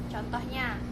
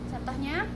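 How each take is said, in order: Both takes have the same delivery.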